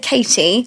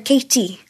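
First: It is said in a plain English accent. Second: It is said softer and huskier, Welsh-accented. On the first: "I'd say Katie" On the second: "The Welsh would go, Katie. So it's more softer. It's kind of more husky"

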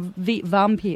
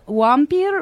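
First: The word begins with a V sound. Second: The word begins with a W sound.

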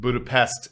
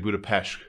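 First: It is said the way it is spelled. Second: It is said the local Hungarian way. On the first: This follows the written form. "Budapest is how it's spelled" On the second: This is how residents say it. "The people that live there would say Budapest"

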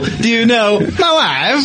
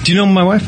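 First: It is said in an exaggerated, cool character voice. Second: It is said in a plain, ordinary way.

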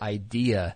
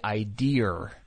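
First: The word ends in a plain vowel, no r. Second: The word ends with an added r sound. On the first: The speaker calls it right. "people don't say the word idea" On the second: The speaker calls it wrong. "They say idea. Idea-R"

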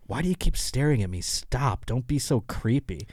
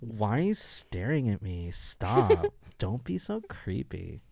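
First: It is said in a plain, annoyed tone. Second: It is said in a seductive, sultry tone.

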